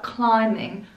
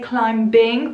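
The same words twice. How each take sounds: First: The B sound is silent after the M. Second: The B sound is pronounced after the M. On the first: The speaker calls it right. "I know there is a B at the end, but we do not pronounce it" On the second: The speaker calls it wrong. "we don't say climbing"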